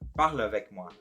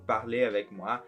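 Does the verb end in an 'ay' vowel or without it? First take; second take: without it; ay vowel. First: The verb ends without an 'ay' vowel sound. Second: The verb ends with an 'ay' vowel sound. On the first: It is a request in the present. The speaker calls it right. "na verdade eu deveria ter dito parle avec moi" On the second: It sounds like it happened in the past. The speaker calls it wrong. "o jeito que eu falo parler avec moi parece como se eu estivesse falando no passado"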